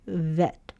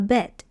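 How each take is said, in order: First: The word begins with a V sound. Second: The word begins with a B sound. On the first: The letter has no dot inside. "this one here makes the V sound" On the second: The letter has a dot inside. "It makes the B sound"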